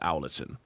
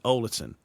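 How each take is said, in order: First: It is said the way non-locals say it. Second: It is said the local Sheffield way. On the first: The speaker is not from the town. "I always called it Owlerton" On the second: The speaker is from the town. "it's only people from Sheffield who actually call it Owlerton"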